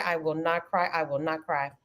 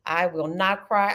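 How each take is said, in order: First: Softer, lower mantra, almost to herself; fading repeat to stay composed; quieter to herself. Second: Said in the usual way. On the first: Real, not acted. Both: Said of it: "I promise you I'm not crying".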